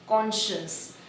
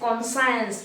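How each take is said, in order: First: The second part sounds like 'shuns'. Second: The second part sounds like 'science'. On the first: The speaker calls it right. "It is कॉन्शियंस" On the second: The speaker calls it wrong. "That is कॉन्साइंस, it is wrong"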